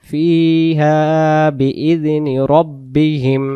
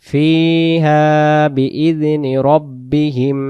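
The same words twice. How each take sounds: The two takes are said the same way.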